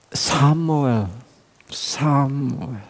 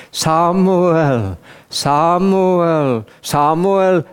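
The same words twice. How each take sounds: First: Leiser, flehender Ruf nach dem Namen; verzweifelter Ruf. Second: Lauter, hoher, feierlicher Ruf; Gott ruft. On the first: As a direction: ruf Samuel wie ein gebrochener Vater am Boden. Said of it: "Und ich rief". (leises, verzweifeltes Rufen) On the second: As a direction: ruf den Namen wie Gottes Stimme, dreimal anschwellend. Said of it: "rief Gott". (lautes, hohes, feierliches Rufen) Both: Retold or imitated.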